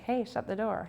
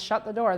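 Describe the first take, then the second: First: It is said playfully, with a wink. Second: It is screamed angrily.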